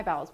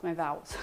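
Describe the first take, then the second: First: Vowels said with a b, like bowels; wrong vowels. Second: Vowels said with a clear v; correct vowels. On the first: Streamer joking about her Spanish, saying vowels as bowels. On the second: Streamer correcting herself, vowels with a clean v. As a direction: say vowels properly, crisp v. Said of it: "not my vowels". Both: Shown as a demonstration.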